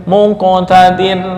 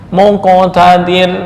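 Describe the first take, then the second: Both takes have the same delivery.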